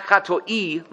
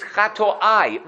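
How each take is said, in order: First: Chatoi said slowly as two syllables, cha-TOI; chatoi, the short singular form, slowly. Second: Chatoai said slowly with three syllables, cha-to-AI; chatoai, the plural form, drawn out. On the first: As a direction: spell out chatoi deliberately, ending on -oi. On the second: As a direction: stretch chatoai out so the plural -ai ending is heard. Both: Shown as a demonstration. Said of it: "Chatoai is not chatoi".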